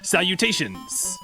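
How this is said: It is said with a slightly French accent.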